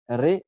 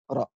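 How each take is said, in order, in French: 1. La voyelle est un son 'e' fermé, antérieur. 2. La voyelle est un son 'a' ouvert. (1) "Ré, ça se prononce euh, plutôt dans le Maghreb" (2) "c'était plutôt ra"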